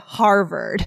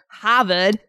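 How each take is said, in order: First: The R sounds are pronounced in the word. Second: The R sounds are dropped from the word. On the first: This is the usual pronunciation. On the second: This is how local Bostonians say it.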